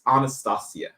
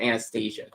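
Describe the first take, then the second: First: The name is said the traditional Russian way. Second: The name is said the Americanized way. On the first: The speaker calls it right. "It's Anastasia" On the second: The speaker calls it wrong. "it just sounds like American, like Southern drawl to me"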